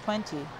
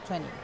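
First: It is said with a British pronunciation. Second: It is said with an American pronunciation. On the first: "con todos los británicos es más 20" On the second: "más que todos los americanos"

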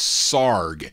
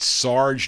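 First: The word ends with a hard g sound. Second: The word ends with a soft j sound. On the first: The speaker calls it right. "You got to pronounce it S-A-R-G" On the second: The speaker calls it wrong. "Is it Sarge? No"

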